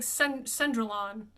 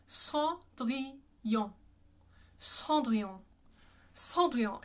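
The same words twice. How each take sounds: First: Cendrillon as "SEN-druh-lon"; anglicized Cendrillon. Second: Cendrillon as "sah(n)-dree-yoh(n)"; two nasal vowels in Cendrillon; French pronunciation of Cendrillon. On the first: Teacher reads it as it looks, anglicized. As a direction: read Cendrillon with English vowels and sounded n. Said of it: "It looks like". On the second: Teacher shows the funnest word to say, French pronunciation. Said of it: "but it's". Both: Shown as a demonstration.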